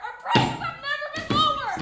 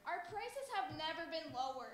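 First: It is yelled very loudly. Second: It is said at a moderate, unraised volume.

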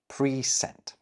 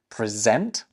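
First: Both syllables get equal stress, with a long first vowel. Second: The stress is on the second syllable. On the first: It means sent beforehand. "we're giving equal weight to both syllables" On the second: It is a verb meaning to give formally. "with the emphasis on the second syllable"

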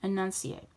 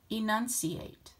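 First: The word is mumbled, with sounds blurred together. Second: The word is said clearly, with each sound distinct. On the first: The speaker calls it wrong. "Which sounded clearer? The first one or the second one? I hope you said the second one" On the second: The speaker calls it right. "I was trying to enunciate more clearly the second time"

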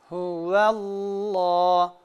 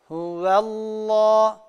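Both takes have the same delivery.

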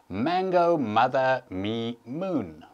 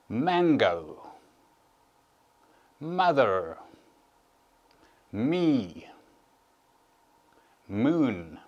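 First: The list is said a little faster. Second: The list is said at a normal pace.

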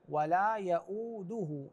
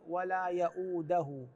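First: The d sound is followed by a 'u' vowel. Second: The d sound is followed by a non-'u' vowel. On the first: The speaker calls it right. "الدال مضمومة" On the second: The speaker calls it wrong. "وليس ولا يؤوده، يؤوده غير صحيح"

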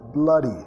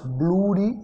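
First: The first vowel sounds like an open ah. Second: The first vowel sounds like a rounded o. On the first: The speaker calls it right. "más blah" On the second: The speaker calls it wrong. "no es bloody"

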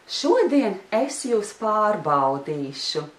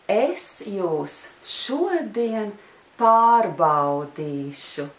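First: It is said at normal speed. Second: It is said slowly.

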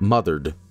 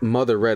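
First: The ending is a reduced 'ed' sound. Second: The ending is said as a full 'red'. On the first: The speaker calls it right. "it's like smothered" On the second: The speaker calls it wrong. "it's not Mother Red"

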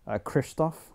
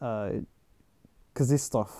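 First: The name is said with an audible R sound. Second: The name is said without an R sound. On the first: The speaker calls it wrong. "I used to always call him Krzysztof Kieslowski, but apparently that's not right" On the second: The speaker calls it right. "You don't really pronounce the R"

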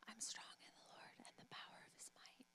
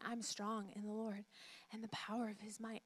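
First: It is whispered very quietly. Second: It is said at normal loudness.

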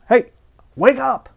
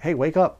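First: It is said loudly and forcefully. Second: It is said softly and gently.

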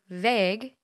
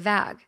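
First: The vowel is the long 'ay' sound. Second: The vowel is the short 'a' sound. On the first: The speaker calls it right. "which is how it should be" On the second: The speaker calls it wrong. "I say vag"

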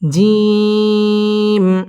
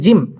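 First: The vowel is drawn out long. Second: The vowel is said short without lengthening. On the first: The speaker calls it right. "3 আলিফ থেকে 4 আলিফ পরিমাণ টান দিয়ে এই হরফটি উচ্চারণ করতে হবে।" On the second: The speaker calls it wrong. "অনেকে জিম পড়ার সময় টান দিয়ে পড়ে না, বলে জিম, এভাবে যদি পড়ে তাহলে পড়াটা শুদ্ধ হবে না।"

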